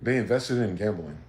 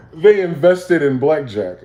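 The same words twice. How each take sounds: First: Said in the usual way. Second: Louder, slower, higher, each word landed; slow, loud mocking emphasis; emphatic punchline. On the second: Real, not acted. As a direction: hit the punchline hard after the laugh. Repeats punchline after laugh.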